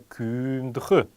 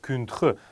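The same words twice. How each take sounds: First: The vowel in the word is long. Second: The vowel in the word is short. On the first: The speaker calls it right. "именно «кюндх» с долготой" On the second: The speaker calls it wrong. "долгая буква «ü» исчезла"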